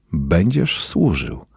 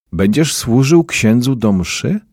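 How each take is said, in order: First: Slow, falling statement, weight on będziesz; insistent repeat. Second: Higher question, rising at the end; asking. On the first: Sacristan tells the unwilling boy he will serve, insistent. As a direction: state it slowly as settled. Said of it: "powtórzył zakrystian". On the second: Sacristan asks a boy in the corner to serve at mass, asking. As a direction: ask it with a lift on służył. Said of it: "zapytał". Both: A narrator's reading.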